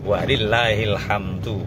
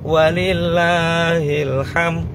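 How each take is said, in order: First: The last word ends with a clear 'du'. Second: The last word ends with 'm', no final 'd'. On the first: The speaker calls it right. "susunan yang benar" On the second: The speaker calls it wrong. "nek enggak dikasih dal"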